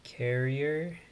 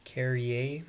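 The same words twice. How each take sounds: First: "Carrier" with an English r ending, like the common word; English-style pronunciation. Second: "Carrier" as car-ee-AY, final r dropped; French-style pronunciation. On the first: Gamer trying a player's surname, English-style "Carrier" ending in r. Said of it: "however it's pronounced". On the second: Gamer offering the other reading of a surname, French-style "Carrier" ending in -ay. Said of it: "he's probably French". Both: Shown as a demonstration.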